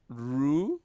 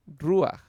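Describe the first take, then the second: First: "Ru-ja" said with a loud j sound, the wrong way; wrong pronunciation. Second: "Ruach" said loudly, with a final ach sound; correct pronunciation. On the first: Teacher showing students the wrong reading, loudly. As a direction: say "Ru-ja" with the j sound, as the mistake. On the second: Teacher giving students the correct reading, said loudly. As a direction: end "Ruach" on a clear ach. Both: Shown as a demonstration. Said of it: "no, sería ruach".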